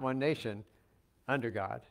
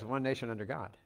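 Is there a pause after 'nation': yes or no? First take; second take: yes; no. First: There is a pause after nation. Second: It flows without a pause after nation.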